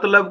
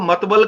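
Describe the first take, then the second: First: The l sound comes before the b sound. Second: The b sound comes before the l sound. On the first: The speaker calls it right. "ल के बाद व आना चाहिए" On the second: The speaker calls it wrong. "मतलब को मतबल कहते हैं"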